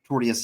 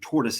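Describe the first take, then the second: First: The word is said like 'tortious', the legal term. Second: The word is said like 'tortoise', the animal. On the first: This is the intended legal term. The speaker calls it right. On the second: This is the common mistaken version. The speaker calls it wrong.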